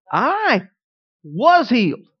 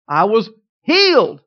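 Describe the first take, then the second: First: "I" lifted alone, "was" leaned on hard; stress on I and WAS. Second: Slow build to a loud "healed"; pause, then "healed" punched out loud; stress on HEALED. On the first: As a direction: set "I" apart, then hit "was". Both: Retold or imitated. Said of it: "emphasize every single word in it".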